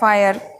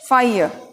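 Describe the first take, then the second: First: The word ends with a clear r sound. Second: The word ends in a vowel without r. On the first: The speaker calls it wrong. "हम इसे फायर बोलते हैं" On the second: The speaker calls it right. "सही उच्चारण है फाइय"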